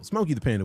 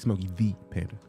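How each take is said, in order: First: The extra E in Smokey is not sounded. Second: The extra E in Smokey is clearly sounded. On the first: The speaker calls it wrong. "My bad" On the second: The speaker calls it right. "You gotta acknowledge that other E"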